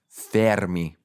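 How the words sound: The name is said with an Italian accent. "the Italian pronunciation is Fermi"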